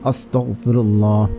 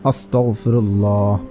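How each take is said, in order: No difference in how they are said.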